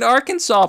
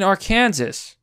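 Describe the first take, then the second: First: The word does not end like Kansas. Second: The word ends sounding like Kansas. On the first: The speaker calls it right. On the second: The speaker calls it wrong.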